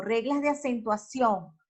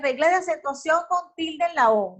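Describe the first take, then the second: First: "acentuación" with the force on its final ó; stress on final O. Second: "acentuación con tilde en la O", higher, accent mark spoken aloud; mock spelled-out speech. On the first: Teacher shows where the spoken force falls, stress on the O of "acentuación". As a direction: say "acentuación" stressing the last syllable. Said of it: "la fuerza tónica a la O en acentuación". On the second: Teacher shows how nobody talks, "acentuación" with "con tilde en la O" voiced. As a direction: say "con tilde en la O" as part of the phrase. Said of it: "Que no hablamos así".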